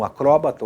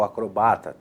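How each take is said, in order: First: "acróbata" with stress on the second syllable, CRÓ. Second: "acrobata" with stress on the next-to-last syllable, BA. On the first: Teacher shows first variant, "acróbata" stressed on CRÓ. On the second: Teacher shows second variant, "acrobata" stressed on BA. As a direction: lean on BA in "acrobata". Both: Shown as a demonstration. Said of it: "tanto faz".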